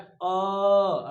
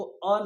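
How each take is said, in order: First: अ drawn out to triple length, slow; pluta vowel. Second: Said in the usual way. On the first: Shown as a demonstration. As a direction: hold अ three times as long as a short vowel. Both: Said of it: "अ नहीं बोलना, इसको बोलना है अ".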